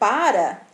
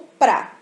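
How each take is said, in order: First: The word is said with two full syllables. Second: The word is reduced to one short syllable. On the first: "em vez da gente usar o para" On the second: "essa variante aí mais reduzida"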